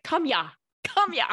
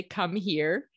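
First: Put-on "Come ya, come ya" in a playful Russian accent, higher and laughing; mock Russian accent. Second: Said in the usual way. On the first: To the dog Richie, calling "Come ya" in a mock Russian accent. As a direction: do a light Russian accent on "Come ya", turning "here" into "ya". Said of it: "with a Russian accent". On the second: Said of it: "I had to say".

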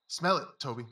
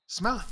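First: Said in the usual way. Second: Higher and louder, SMELL pushed; urging a dog. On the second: Acted. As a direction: press the dog on, Smell it punched.

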